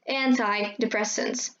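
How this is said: It is said in an American accent. "in American accent, you will hear"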